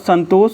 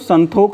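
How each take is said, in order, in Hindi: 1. यह शब्द 'sh' की ध्वनि से खत्म होता है। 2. यह शब्द 'kh' की ध्वनि से खत्म होता है। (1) "संतोष को" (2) "संतोख बोलते हैं"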